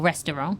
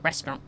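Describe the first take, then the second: First: It is said with three syllables. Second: It is said with two syllables. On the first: This is the British way of saying it. "British English, we tend to say restaurant or restaurant... there's three" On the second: This is the American way of saying it. "And then the Americans do restaurant"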